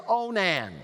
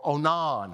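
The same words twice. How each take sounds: First: Onan as "OH-nan", short a at the end; one pronunciation. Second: Onan as "oh-NAHN", open ah at the end; alternative pronunciation. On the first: Preacher naming the next son, Onan said "OH-nan". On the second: Preacher offering another reading of the name, Onan said "oh-NAHN". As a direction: say Onan ending like "non". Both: Shown as a demonstration. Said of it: "however you want to pronounce it".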